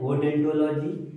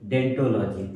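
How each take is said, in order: First: The word begins with an audible O sound. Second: The word begins directly with a D sound. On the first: This is how the word is spelled. The speaker calls it wrong. "लिखा जाता है ओडेंटोलॉजी" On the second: This is how the word is read aloud. The speaker calls it right. "लेकिन पढ़ा जाता है सिर्फ और सिर्फ डेंटोलॉजी"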